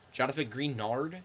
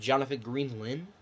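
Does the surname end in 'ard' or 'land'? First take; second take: ard; land. First: The surname ends with an 'ard' sound. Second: The surname ends with a 'land' sound. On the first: "is that how you pronounce it?" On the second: "Instead of"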